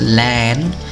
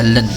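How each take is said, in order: First: The vowel is full and open. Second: The vowel is short and reduced. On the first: The word stands alone. "dia suatu kata dibaca land" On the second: The word is used as a suffix. "tidak dibaca land lagi tapi dibaca len"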